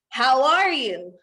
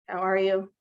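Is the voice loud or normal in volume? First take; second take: loud; normal. First: It is said in a big, loud voice. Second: It is said at normal, everyday volume. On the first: The speaker calls it right. "use your big, loud voice" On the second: The speaker calls it wrong. "just in your normal voice"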